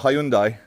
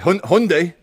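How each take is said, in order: First: The name is said with an English pronunciation. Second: The name is said with a Korean pronunciation.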